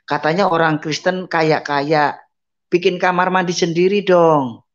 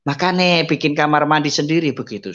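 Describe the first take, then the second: First: Scornful neighbour mocking a blind man; sneering taunt. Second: Gloating taunt. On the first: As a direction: taunt him for being a rich Christian. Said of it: "Dibilang gitu". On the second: Retold or imitated. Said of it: "orangnya di depan pintu".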